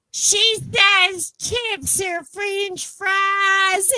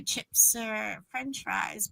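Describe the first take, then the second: First: Very slow, high singsong mock Southern; gushing Southern local. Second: Said in the usual way. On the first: Texan repeats her word for chips, gushing drawl. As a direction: drawl it out, pitched way up, like a charmed Texan.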